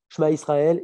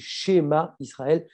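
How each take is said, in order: First: The first vowel is swallowed or dropped. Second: The first vowel is clearly pronounced. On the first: The speaker calls it wrong. "il y a des gens qui vont dire" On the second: The speaker calls it right. "c'est pas comme ça qu'il faut le prononcer, c'est schéma Israël"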